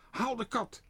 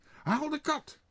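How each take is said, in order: First: Hoge, luide roep; roepend. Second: Nog hoger, dringende roep; roepend. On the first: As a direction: roep het gehaast naar je vrouw. (meneer Pardoes roept naar zijn vrouw, hoog en luid) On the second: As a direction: herhaal het nog dwingender. (meneer Pardoes roept nog hoger en dringender naar zijn vrouw) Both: A narrator's reading. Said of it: "riep tegen zijn vrouw".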